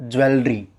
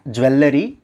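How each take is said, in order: First: Jewelry as JU-el-ri; correct jewelry. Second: Jewelry as ju-WEL-le-ri; mispronounced jewelry. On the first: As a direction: run L into R in jewelry: ju-el-ree. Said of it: "it's jewelry". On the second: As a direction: add a syllable to jewelry: ju-el-le-ree. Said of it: "Not jewelry". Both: Shown as a demonstration.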